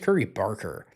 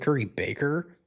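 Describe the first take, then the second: First: The surname has an R sound before the K. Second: The surname has no R sound before the K. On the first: The speaker calls it right. "His name is" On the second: The speaker calls it wrong. "I've been calling him"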